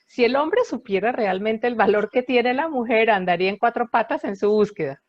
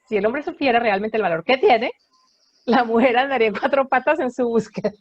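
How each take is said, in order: First: The pause comes after the word 'mujer'. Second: The pause comes after the word 'tiene'.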